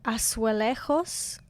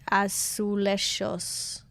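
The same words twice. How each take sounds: First: It is said with a Spanish accent. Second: It is said with a Portuguese accent. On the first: "I think I'm saying that with a Spanish accent" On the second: "so maybe it's like"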